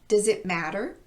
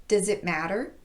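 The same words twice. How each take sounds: Both takes have the same delivery.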